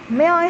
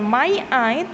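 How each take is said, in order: First: The two words are joined together smoothly. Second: The two words are said separately. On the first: The speaker calls it right. "digabung-gabung may I" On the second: The speaker calls it wrong. "bukan my I"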